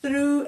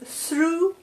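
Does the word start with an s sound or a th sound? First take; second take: th sound; s sound. First: The word begins with a th sound. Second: The word begins with an s sound. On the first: The speaker calls it right. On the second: The speaker calls it wrong.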